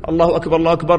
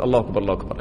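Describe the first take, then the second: First: Muezzin's call. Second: Quiet repeating. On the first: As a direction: sound it like the muezzin calling. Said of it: "تعرفون". (نداء المؤذن بخفة) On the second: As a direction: lower and softer, repeating under the breath. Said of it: "تقول". (ترديد بصوت منخفض وهادئ) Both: Shown as a demonstration.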